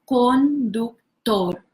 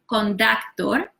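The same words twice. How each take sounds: First: The vowels are pure Spanish vowels. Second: The vowels sound like English vowels. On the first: The speaker calls it right. "the way we pronounce this in Spanish is conductor" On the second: The speaker calls it wrong. "not conductor"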